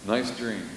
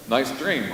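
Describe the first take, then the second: First: "Nice dream" dropped much softer; a quiet sarcastic echo; soft ironic aside. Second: Said in the usual way. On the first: Shown as a demonstration. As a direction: murmur it dryly to yourself.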